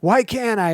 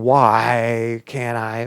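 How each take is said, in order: First: High-pitched whiny challenge; exclaimed, indignant complaint; stating why. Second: Very drawn-out "why" as a complaint; slow, protesting declaration; stating why. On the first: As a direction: protest it, don't ask it. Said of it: "if I'm stating why". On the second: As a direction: stretch it into an arrogant statement. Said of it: "but stating". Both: Shown as a demonstration.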